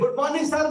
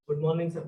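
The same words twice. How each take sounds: First: The greeting is said very loudly and forcefully. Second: The greeting is said very softly and weakly. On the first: The speaker sounds like an army recruit. "जैसे army में भर्ती के लिए आ रखे हैं" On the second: The speaker sounds timid. "बेटा थोड़ा जोर से बोल लो"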